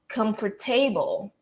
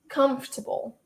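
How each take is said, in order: First: The ending is said as a full 'table'. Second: The ending is reduced and unstressed. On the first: The speaker calls it wrong. "your mind automatically wants to pronounce it as table" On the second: The speaker calls it right. "it's actually pronounced as comfortable"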